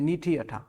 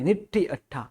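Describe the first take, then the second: First: The first vowel is long. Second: The first vowel is short. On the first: The speaker calls it wrong. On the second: The speaker calls it right.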